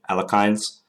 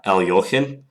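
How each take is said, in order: First: The name is said with a Western pronunciation. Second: The name is said with a Russian pronunciation. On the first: "the way that I hear most Westerners say it" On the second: "the traditional Russian pronunciation of it"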